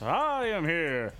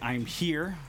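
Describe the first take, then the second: First: It is said in a booming, heroic put-on voice. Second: It is said in a plain, ordinary voice. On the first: "He just doesn't do it with the All Might voice" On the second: "as he doesn't like say"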